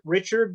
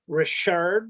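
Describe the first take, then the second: First: The name is said with an English pronunciation. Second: The name is said with a French pronunciation. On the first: The speaker calls it wrong. "lots of people pronounce it" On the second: The speaker calls it right. "it's actually Richard, like the hockey company, the hockey player"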